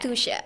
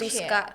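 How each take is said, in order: First: The middle consonant is an sh sound. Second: The middle consonant is a k sound. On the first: The speaker calls it right. "spelling yang benar adalah Tusha" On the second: The speaker calls it wrong. "orang tuh sering eh, mispronounce gitu loh"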